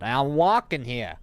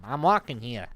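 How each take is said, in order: First: Loud, slow Boston-style yell, higher. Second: A lightly hammed-up Boston accent, louder; Boston street yell. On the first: Retold or imitated. Yelling at forklift drivers crossing in front, loud Boston-style shout. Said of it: "And I just yelled out loud". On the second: Shown as a demonstration. Mocking coworkers from Boston, mild Boston accent yell. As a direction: throw a mild New York-Boston accent at a driver. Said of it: "It's when you yell back at 'em".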